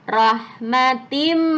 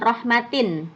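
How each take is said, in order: First: The n becomes m, merging into the next m. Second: The word ends with a clear n sound. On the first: The speaker calls it right. "harus masuk ke huruf depannya" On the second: The speaker calls it wrong. "bukan rahmatin"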